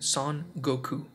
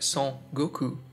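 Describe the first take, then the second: First: Son is pronounced with a Japanese sound. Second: Son is pronounced with a French nasal sound. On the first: "his full Japanese name" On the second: "It would be pronounced like"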